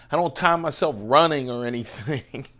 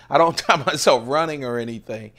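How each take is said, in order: First: Said in the usual way. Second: Faster, louder, laughing through it; retelling the running joke, laughing; laughing repeat. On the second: Shown as a demonstration. To viewers about not timing his runs, laughing.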